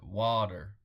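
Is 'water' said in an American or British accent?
American. It is said in an American accent. "that's how they say water, isn't it?"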